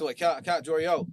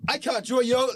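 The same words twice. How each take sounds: First: Said in the usual way. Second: Higher, louder insistent repeat; emphatic plea. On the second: Real, not acted. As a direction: push it, pleading with him.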